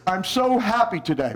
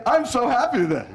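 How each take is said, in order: First: Glum delivery through a pushed-out lip; slumped, pouty, sinking at the end; pouting, droopy. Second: Happy, smiling delivery; big smile. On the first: Teacher showing parents how body colours voice, pouting. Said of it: "Pooch out your bottom lip". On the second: Teacher showing parents how body colours voice, smiling. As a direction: let a big smile lift the words. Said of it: "Give me a big smile". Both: Shown as a demonstration.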